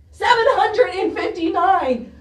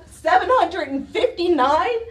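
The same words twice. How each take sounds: First: Falling tune, seven hit hard; outraged exclamation. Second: Rising question on hundred, stunned; disbelieving question. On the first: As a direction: slam the number down as an accusation. Repeating the reading as outrage. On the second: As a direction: ask it as if you can't believe the number. Reading out a pollution reading. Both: Real, not acted.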